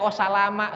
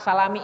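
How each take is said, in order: First: The word ends with an a vowel. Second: The word ends with an i vowel. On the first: "Enggak bisa dibaca wassalama"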